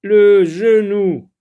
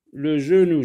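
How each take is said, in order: First: Loud, slow, higher announced word; dictation style. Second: Said in the usual way. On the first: Shown as a demonstration. Teacher announcing a new word to pupils, loud dictation style. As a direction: call out the new word, drawn out.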